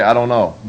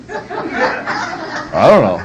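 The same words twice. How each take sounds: First: Said in the usual way. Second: "I don't know" stretched slowly through a laugh; laughing drawn-out I don't know. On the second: Shown as a demonstration. Preacher teaching fathers, drawn out with a laugh. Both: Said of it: "to say".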